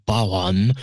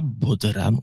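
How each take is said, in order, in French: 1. Les consonnes du milieu ne se prononcent pas. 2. Chaque consonne écrite se prononce. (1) "on dit Bawan" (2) "on ne dit pas bodhran"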